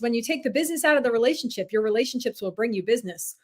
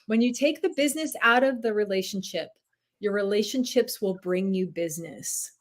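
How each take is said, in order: First: It is said at a normal speed. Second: It is said more slowly than before.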